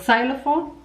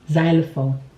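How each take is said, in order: First: The word begins with a 'ks' sound. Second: The word begins with a 'z' sound. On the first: The speaker calls it wrong. "Unfortunately, that is wrong" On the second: The speaker calls it right. "The X is actually pronounced as Z"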